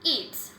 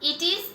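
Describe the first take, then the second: First: The words are merged into one short syllable. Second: Both words are said fully and separately. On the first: "contraction form হচ্ছে ইটস" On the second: "ইট ইজ এর contraction form"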